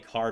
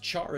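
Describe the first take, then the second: First: It begins with a hard k sound. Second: It begins with a ch sound. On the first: It is short for character. "I say car because it's short for character" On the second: It is the word meaning to scorch. "char is a word, right? As in to scorch"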